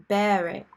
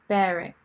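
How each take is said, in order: The two takes are said the same way.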